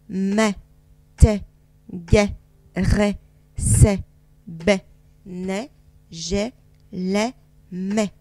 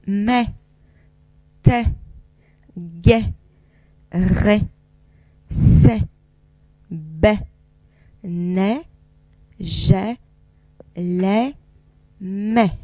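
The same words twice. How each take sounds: First: The syllables are read at a faster pace. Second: The syllables are read at a slower pace.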